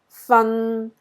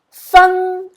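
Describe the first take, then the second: First: It is said with Cantonese tone three. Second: It is said with Cantonese tone one.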